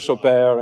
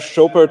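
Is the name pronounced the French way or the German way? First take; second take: French; German. First: The name is pronounced with French sounds. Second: The name is pronounced with German sounds. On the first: "Monsieur Chopert in French" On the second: "Herr Schopert in German"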